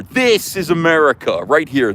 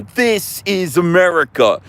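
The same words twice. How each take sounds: First: Said in the usual way. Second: "This is America" said slow and higher, "This" hit hard; slow, rising proclamation. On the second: Shown as a demonstration. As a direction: drag out "This is America" like a rallying cry. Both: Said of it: "this is the future".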